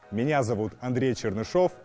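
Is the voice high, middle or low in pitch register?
low. It is spoken in a low chest register.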